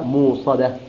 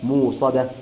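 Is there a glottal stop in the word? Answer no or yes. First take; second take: no; no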